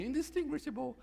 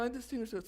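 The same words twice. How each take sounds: First: Lady's voice from dictionary. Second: Tough guy's voice. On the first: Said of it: "It was in a lady's voice". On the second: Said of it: "a tough guy's voice". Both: Retold or imitated.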